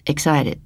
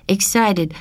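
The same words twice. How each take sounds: First: The word Excited said a bit lower as the kindly stranger, falling; the stranger calmly offers the right word Excited; man correcting gently. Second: A hint of Rosa's accent as she copies Excited; Rosa repeating the word. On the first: Acted. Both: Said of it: "the man helped out".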